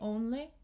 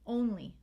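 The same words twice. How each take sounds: First: The final vowel drops flat, like eh. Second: The final vowel is a clear long E. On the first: The speaker calls it wrong. "students will say only, eh" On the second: The speaker calls it right. "We want E"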